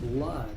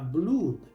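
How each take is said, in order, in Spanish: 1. La vocal suena como una 'a' corta. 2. La vocal suena como una 'oo' larga. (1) "La primera O se pronuncia A, la segunda O es muda" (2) "Muchos pronuncian esta palabra blood porque ven la doble O"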